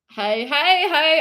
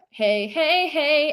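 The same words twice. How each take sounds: First: HEY said as "high", mock Australian; bad Aussie accent. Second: Said in the usual way. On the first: Streamer imitating an Aussie crowd, bad Australian accent. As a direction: put on a broad, poor Australian accent. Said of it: "hearing this in an Aussie accent". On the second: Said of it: "the hey, hey, hey, sounds different".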